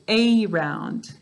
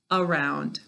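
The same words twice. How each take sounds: First: The first vowel is a long 'ay' sound. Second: The first vowel is a weak 'uh' sound. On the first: This pronunciation helps with spelling the word. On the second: This is the normal everyday pronunciation.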